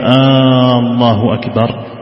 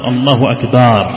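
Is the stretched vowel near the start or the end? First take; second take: start; end. First: The first vowel of the phrase is stretched long. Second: The vowel after the b is stretched long. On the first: It becomes a question asking whether God is greatest. "يمد الألف من الله الأولى" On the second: The word becomes a plural meaning drums. "جعل مدا بعد الباء من قوله أكبر"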